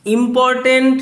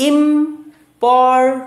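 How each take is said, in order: First: Said in the usual way. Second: important split into three slow beats, ইম, পর, tent, with gaps; syllable by syllable. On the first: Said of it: "কটা syllable". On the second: Shown as a demonstration. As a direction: break important apart for counting. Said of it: "তিনটে syllable".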